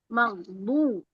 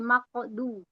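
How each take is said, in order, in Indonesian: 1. Huruf tengahnya adalah bunyi 'gh' dari tenggorokan. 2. Huruf tengahnya adalah bunyi 'q' yang keras. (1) "seharusnya magdu pakai ghain" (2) "berubah menjadi qaf"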